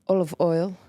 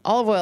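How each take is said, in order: First: It is said in an Eastern European accent. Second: It is said in her own plain accent.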